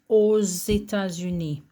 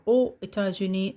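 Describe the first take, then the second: First: A Z sound links aux to États. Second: No Z sound comes between aux and États. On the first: The speaker calls it right. "you have to pronounce the X like a Z" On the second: The speaker calls it wrong. "it's more difficult to say"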